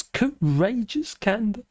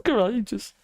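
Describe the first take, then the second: First: Said in the usual way. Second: Sarcastic echo. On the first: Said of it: "Oh, courageous". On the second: Shown as a demonstration. Mocking the article's praise of Baker, sarcastic. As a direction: sneer at the word courageous.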